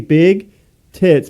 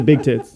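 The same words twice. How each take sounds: First: The two words are said separately, with a break. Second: The two words run together as one word.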